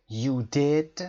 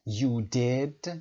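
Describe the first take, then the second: First: Rising, surprised "You did"; surprised rising tune on "You did". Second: Said in the usual way. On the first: Shown as a demonstration. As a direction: sound amazed on "You did", voice going up. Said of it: "صدامون رو بردیم بالا، سرپرایز داریم". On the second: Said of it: "با حالت تعجب".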